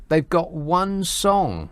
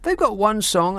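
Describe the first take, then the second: First: Slow scornful emphasis. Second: Exasperated repeat. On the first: Scoffing at the Spice Girls. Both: Real, not acted.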